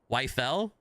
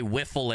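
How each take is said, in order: First: The first vowel sounds like 'wife'. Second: The first vowel sounds like 'whiff'. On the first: This is the German way of saying it. "The German pronunciation is Wife-L" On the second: This is the American way of saying it. "how we say wiffle in America"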